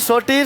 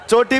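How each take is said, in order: First: The word begins with an s sound. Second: The word begins with a ch sound.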